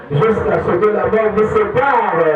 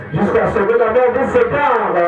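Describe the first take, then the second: The two takes are said the same way.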